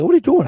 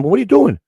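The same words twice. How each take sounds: First: Very high, louder indignant question; upset retort. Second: High, loud exasperated question; upset retort. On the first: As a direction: snap it out, truly fed up. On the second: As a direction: blurt it out in shocked disbelief. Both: Retold or imitated. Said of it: "I got really upset".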